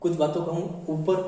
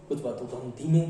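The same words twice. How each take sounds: First: "ऊपर" kept up at normal speaking pitch; intonation up. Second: "धीमे" dropped low in pitch; intonation down. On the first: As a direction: say "कुछ बातों को हम ऊपर" on the raised side of the contrast. ("ऊपर" पर सुर ऊपर रखते हुए) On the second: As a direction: lower the voice through "कुछ बातों को हम धीमे". ("धीमे" पर सुर नीचे उतारकर) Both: Shown as a demonstration. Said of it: "intonation हमने बोला था उतार चढ़ाव".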